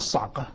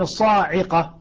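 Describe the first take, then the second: First: There is no long vowel after the s. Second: There is a long a vowel after the s. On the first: This is the variant reading. "يقصر يعني احذف الألف واسكن العين" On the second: This is the other reading. "اذا اتينا بالالف سوف تكون الصاعقه"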